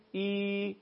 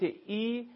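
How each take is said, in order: First: Drawn-out "ای" sound for ya; long "ee". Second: Brief "ای" sound for kasra; short "ee". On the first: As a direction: hold "ای" as a long, clear i. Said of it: "مقدار و میزان کشش هست". («ای» کشیده مثل یاء مدی) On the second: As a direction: say "ای" as a short, clear i. («ای» کوتاه مثل کسره) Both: Shown as a demonstration.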